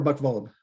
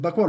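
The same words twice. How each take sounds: First: Buchwald with W said as V; German pronunciation. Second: Buchwald with an English W sound; American pronunciation. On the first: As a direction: say Buchwald as "book-vald". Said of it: "if you're in Germany". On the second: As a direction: say Buchwald as "buck-wald". Asks which name pronunciation is right. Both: Shown as a demonstration.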